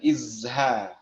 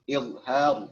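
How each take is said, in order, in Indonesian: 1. Konsonan di tengah adalah bunyi z biasa. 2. Konsonan di tengah adalah bunyi dh yang emfatik. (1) "bukan izha" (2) "izhar pakai dha ya, dha titik atas itu"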